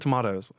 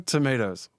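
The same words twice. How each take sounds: First: Tomatoes has a British-sounding pronunciation. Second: Tomatoes has an American-sounding pronunciation. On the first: The speaker calls it wrong. "You are not British" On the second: The speaker calls it right. "there is a right way to say it"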